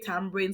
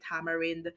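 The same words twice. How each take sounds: First: It has the Jamaican pronunciation. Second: It has a non-Jamaican pronunciation. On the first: This is how people say it locally. "in Jamaica, we say tamarind" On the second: This is how people elsewhere say it. "Some countries say tamarind"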